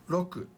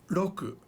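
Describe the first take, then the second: No difference in how they are said.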